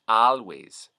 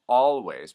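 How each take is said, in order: First: The first vowel is an 'ah' sound. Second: The first vowel is an 'aw' sound. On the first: "becomes an ah sound" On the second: "the aw sound"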